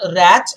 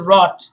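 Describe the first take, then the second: First: The vowel sounds like the one in 'cat'. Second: The vowel sounds like the one in 'cot'. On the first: The speaker calls it wrong. "W R A T H is not rat" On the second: The speaker calls it right. "it's actually rot"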